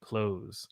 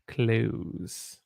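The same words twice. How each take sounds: First: Soft "Close." with long O and z ending. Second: Soft "close." said like "clues". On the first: Teacher showing the word "close". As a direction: say "Close." like closing a door. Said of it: "And I say close". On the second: Teacher showing the other pronunciation. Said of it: "We have to say it by". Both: Shown as a demonstration.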